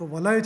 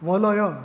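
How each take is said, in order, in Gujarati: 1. એક ટૂંકો અક્ષર, પછી એક બંધ દીર્ઘ અક્ષર. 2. ત્રણ ટૂંકા ખુલ્લા અક્ષર, દરેક સ્વર ઉચ્ચારાય. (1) "લગા" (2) "લલલ ન થઈ શકે"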